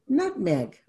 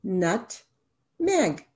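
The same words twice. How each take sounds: First: Said in the usual way. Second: Slow, split into nut and meg; syllables tapped out. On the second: Shown as a demonstration. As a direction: tap out each syllable of Nutmeg as you say it. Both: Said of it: "How many syllables in nutmeg?".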